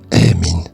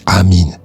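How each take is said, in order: First: The first vowel is an 'eh' sound. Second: The first vowel is an open 'ah' sound. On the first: "j'ai dit emin" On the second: "j'ai pas dit amin"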